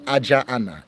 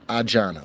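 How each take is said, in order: First: Both vowels are kept where the words meet. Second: One vowel drops where the words meet. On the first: The speaker calls it wrong. "you wouldn't say Ajaana" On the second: The speaker calls it right. "one of the vowels will drop, and so it just becomes Ajana"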